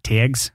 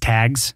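First: The word is said in a Northern accent. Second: The word is said in a standard accent. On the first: "not tags" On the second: "for those that don't understand Northern talk, that's tags"

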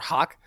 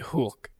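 First: The vowel is an open English aw sound. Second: The vowel is the umlaut ö sound. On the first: This is how the letter is read without the dots. The speaker calls it wrong. "Like we would pronounce it or hawk" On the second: This is how the letter is read with the dots. The speaker calls it right. "with those, that tells you to say O, like a long O. So it'd be hulk"

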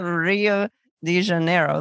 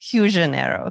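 First: The name is said with an English accent. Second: The name is said with a Brazilian accent. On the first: The speaker calls it wrong. "it's not Rio de Janeiro the way we say it" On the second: The speaker calls it right. "It's more like Rio de Janeiro"

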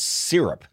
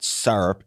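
First: It is said the Brooklyn, New York way. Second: It is said the Midwestern, Iowa way.

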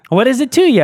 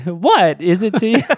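First: Said in the speaker's own ordinary voice. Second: Said imitating a famous actor's distinctive halting delivery. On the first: "I think that's a better way to say it" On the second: "That's the Christopher Walken impression"

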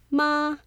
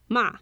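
First: The pitch stays high and level. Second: The pitch falls sharply from high to low.

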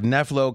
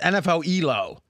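First: The name is blended into one two-syllable word. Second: The letters N F L are spoken, then Elo. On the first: The speaker calls it wrong. "I've been pronouncing it" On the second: The speaker calls it right. "It's NFL Elo"

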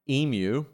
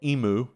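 First: The word is said the Australian way. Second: The word is said the makers' way. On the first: This is how the bird's name is said locally. "I feel like my pronunciation's right because we have emus" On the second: This is how the product's makers say it. "or Emu, as they say"

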